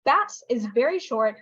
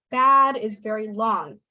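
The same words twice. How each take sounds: First: BAT cut short; quick, short vowel in BAT. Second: BAD drawn out, slow; BAD held long and emphasised; long vowel. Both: Shown as a demonstration.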